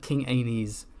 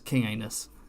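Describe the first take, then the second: First: The name is said in its usual form. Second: The name is said to sound like 'anus'.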